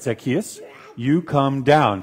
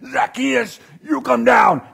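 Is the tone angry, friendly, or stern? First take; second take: stern; angry. First: It is said in a stern tone. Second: It is said in an angry tone.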